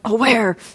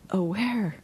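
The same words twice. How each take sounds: First: The word is said with heavy, forceful effort. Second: The word is said lightly and quickly repeated. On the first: Effort is made by pressing hard in one moment. The speaker calls it wrong. "so it's not like aware" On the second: Effort is made by frequent gentle reminding. The speaker calls it right. "So the light touch, but more frequent"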